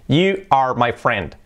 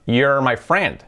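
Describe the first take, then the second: First: You and are are said as separate words. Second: You and are merge into one syllable.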